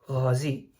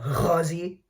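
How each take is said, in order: First: It is said with a soft, smooth throat sound. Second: It is said with a strong, harsh throat sound. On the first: The speaker calls it right. "very, very moderate gutturals" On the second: The speaker calls it wrong. "No, that's Arabic"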